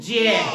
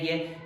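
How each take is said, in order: First: It begins with a j sound. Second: It begins with a hard g sound. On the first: The speaker calls it right. "तो हम इसको ज्ञ ना पढ़कर क्या पढ़ेंगे, जय" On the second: The speaker calls it wrong. "हम इसको ये बोलते आ रहे हैं गे गे गे गे, जबकि गे होता ही नहीं"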